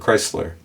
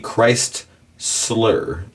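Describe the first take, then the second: First: It is said as one smoothly joined word. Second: It is split into two carefully separated parts. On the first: The speaker calls it right. "that's how people talk though" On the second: The speaker calls it wrong. "if you want to be super like enunciate, enunciate everything"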